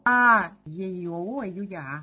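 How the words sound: The first vowel is loud, the rest quiet. "заглавную букву громко, а остальные потихоньку"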